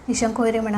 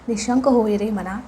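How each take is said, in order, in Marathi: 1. हे पटपट आणि निष्काळजीपणे म्हटले आहे. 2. हे हळू, एकेक शब्द चावून म्हटले आहे. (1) "उगाच ... असं नाही म्हणायचं" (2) "अशा टोनमध्येच तुम्हाला म्हणायचं आहे"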